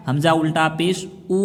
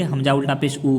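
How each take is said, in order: First: "ऊ" held a little longer; stretched vowel. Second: Quick, with a short "ऊ"; unstretched reading. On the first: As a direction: stretch out the final "ऊ" to show its length. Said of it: "थोड़ा सा खींच के". ("ऊ" को थोड़ा खींचकर) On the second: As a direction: say "ऊ" briefly, without holding it. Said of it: "अगर हम ऐसे ही पढ़ देंगे". ("ऊ" बिना खींचे, जल्दी में) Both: Shown as a demonstration.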